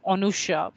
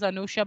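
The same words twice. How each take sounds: First: "Anusha" opening on a rounded o, like Onusha; Bengali pronunciation. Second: Said in the usual way. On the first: Shown as a demonstration. Teacher showing how Bengalis say the name, Bengali pronunciation. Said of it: "the Bengali may pronounce it as". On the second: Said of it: "I would write it as Anusha".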